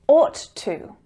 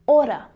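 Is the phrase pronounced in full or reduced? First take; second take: full; reduced. First: Each word is pronounced fully and separately. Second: The words blend into one reduced form.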